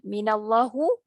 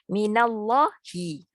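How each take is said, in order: First: The word ends with an 'oo' vowel. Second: The word ends with an 'ee' vowel. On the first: The speaker calls it wrong. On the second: The speaker calls it right.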